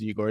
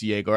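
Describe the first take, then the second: First: The name begins with an 'ee' sound. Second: The name begins with a 'yeh' sound. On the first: The speaker calls it wrong. "mispronounced his name as Igor" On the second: The speaker calls it right. "It's Yegor"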